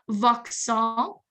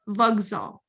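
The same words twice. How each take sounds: First: The middle consonant is an unvoiced K sound. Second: The middle consonant is a voiced G sound. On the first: The speaker calls it wrong. "It's not Vauxhall" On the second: The speaker calls it right. "Sounds like a G"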